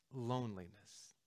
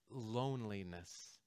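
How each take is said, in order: Both takes have the same delivery.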